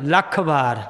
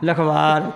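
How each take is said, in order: First: The k sound is held long and doubled. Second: The k sound is short and single. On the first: The speaker calls it right. "ਲੱਲੇ ਤੇ ਅੱਧ ਕਲਾਕ" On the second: The speaker calls it wrong. "ਲਖਵਾਰ ਕੀ ਅਰਥ ਬਣੂਗਾ"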